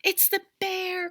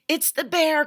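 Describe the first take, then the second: First: Put-on high frightened cry of a small boy. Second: High, loud panicked cry; frightened cry. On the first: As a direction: Eddie cries out on hearing the bear, high and scared. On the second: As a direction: Eddie cries out to Mom about the bear, high and loud. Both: A narrator's reading. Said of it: "cried Eddie".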